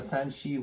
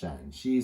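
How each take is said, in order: First: The first syllable has a high level tone. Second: The first syllable has a low dipping tone. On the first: It names the province west of the mountains. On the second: It names the other province, written with two A's.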